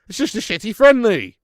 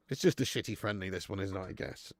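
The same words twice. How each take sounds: First: Loud, high scoff at the fixture; loud disgusted dismissal; loud exasperation. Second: Much lower, softer, fading shrug; quiet deflated grumble; resigned mutter. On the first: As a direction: blurt it out in disgust. Exasperated outburst about the match. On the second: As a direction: let it trail off in resignation. Resigned repeat of his complaint. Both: Real, not acted.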